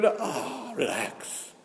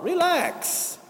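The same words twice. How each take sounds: First: "relax." dropped low and soft, almost to himself. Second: "Relax." pitched high and falling, exasperated; exclaimed relax. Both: Acted. Mocking ego, telling it calm down.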